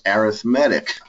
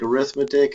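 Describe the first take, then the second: First: The stress is on the third syllable. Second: The stress is on the second syllable. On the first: It is the adjective describing the combinations. "is actually an adjective, pronounced arithmetic" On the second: It is the noun naming the subject. "that word that looks like arithmetic"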